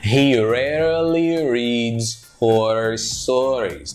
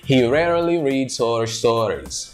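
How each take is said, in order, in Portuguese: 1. A frase é dita devagar e com cuidado. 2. A frase é dita em velocidade natural e conectada.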